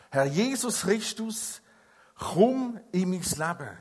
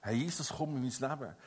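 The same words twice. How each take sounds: First: Slow, earnest spoken prayer. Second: Softer, lower, hushed prayer; tender, quiet prayer. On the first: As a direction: pray it slowly and sincerely. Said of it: "dass ein Mensch betet". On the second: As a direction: pray it gently and quietly. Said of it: "Wenn ein Mensch das Gebet spricht". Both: Shown as a demonstration.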